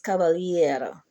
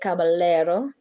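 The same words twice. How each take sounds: First: The double L sounds like a Y. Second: The double L sounds like an L. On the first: The speaker calls it right. "the L L becomes a Y" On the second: The speaker calls it wrong. "you don't say caballero"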